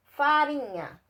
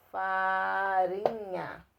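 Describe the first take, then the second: First: Said in the usual way. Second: "farinha" drawn out very slowly, each syllable separated. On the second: Shown as a demonstration. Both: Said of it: "se você tá escrevendo a palavra".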